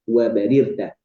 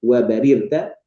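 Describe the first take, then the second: The two takes are said the same way.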